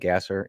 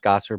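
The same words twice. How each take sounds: First: The name is said as its spelling suggests. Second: The name is said with its usual pronunciation. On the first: This is how the name looks when written. "but it's spelled Gasser" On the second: This is how the name is really said. "I know it's pronounced Gasser"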